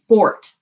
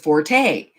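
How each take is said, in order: First: The word is said as one syllable. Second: The word is said as two syllables. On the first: The speaker calls it right. "It's supposed to be fort" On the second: The speaker calls it wrong. "everybody says forte"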